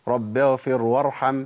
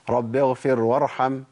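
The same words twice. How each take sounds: The two takes are said the same way.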